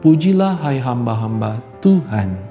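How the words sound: Tuhan is set apart with a different intonation. The speaker calls it right. "Kita harus menyebutnya dengan intonasi yang berbeda"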